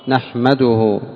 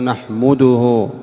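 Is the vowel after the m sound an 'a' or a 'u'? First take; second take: a; u. First: The m is followed by an a vowel. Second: The m is followed by a u vowel. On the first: The speaker calls it right. "الميم مفتوحة" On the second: The speaker calls it wrong. "بضم الميم، وهذا خطأ"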